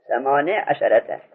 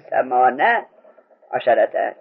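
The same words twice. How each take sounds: First: ثمانیه عشرته as "samane asharata", ya dropped; kasra on the nun. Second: ثمانیه عشرته as "samana asharata", ya dropped; fatha on the nun. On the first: Teacher showing the allowed reading, nun with kasra. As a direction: end ثمانیه on a short "ne" before عشرته. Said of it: "کسرش جایزه". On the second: Teacher showing the irregular reading, nun with fatha. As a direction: end ثمانیه on an open "na" before عشرته. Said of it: "اما نون فتح بدیم". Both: Shown as a demonstration.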